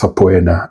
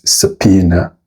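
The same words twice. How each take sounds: First: The word is sounded out following its spelling. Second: The word is sounded differently from its spelling. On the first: The speaker calls it wrong. "this word shouldn't be said as subpoena, regardless of the spelling" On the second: The speaker calls it right. "The correct pronunciation is subpoena"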